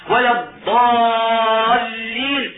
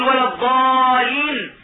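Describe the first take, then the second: First: ولا الضالين said slowly, the ل and ض of الضالين clearly doubled and held; with the shadda. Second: ولا الضالين with the ض said single and light, no doubling; without the shadda. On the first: Teacher modelling the correct recitation, slow doubled ض. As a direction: lean on the doubled ض in الضالين, drawn out. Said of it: "شدتان يجب الانتباه لهما". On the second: Teacher showing students the wrong recitation, light single ض. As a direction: glide over the ض in الضالين without stressing it. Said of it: "ما يشدد". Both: Shown as a demonstration.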